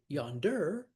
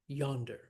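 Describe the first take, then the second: First: The stress is on the second syllable. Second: The stress is on the first syllable. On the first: The speaker calls it wrong. "we do not say" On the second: The speaker calls it right. "We say"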